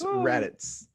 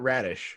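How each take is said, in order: First: The name ends with a 'ts' or 'z' sound. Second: The name ends with an 'sh' sound. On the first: The speaker calls it right. "with with the Z at the end" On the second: The speaker calls it wrong. "not Radish"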